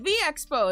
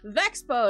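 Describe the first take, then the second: First: The V and Expo are said as separate words. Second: The V runs straight into Expo as one word. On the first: The speaker calls it right. "that's like a separate word" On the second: The speaker calls it wrong. "Who pronounces it as Vexpo?"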